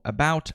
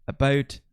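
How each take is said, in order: First: Said in the usual way. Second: About with the ou vowel closed toward "abat"; Canadian raising on about. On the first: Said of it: "em palavras como about". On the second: Shown as a demonstration. Showing viewers how Canadians say about. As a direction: say about the Canadian way, tight diphthong. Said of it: "eles vão pronunciar como".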